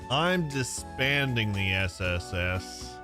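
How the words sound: It is said in an imitated character voice.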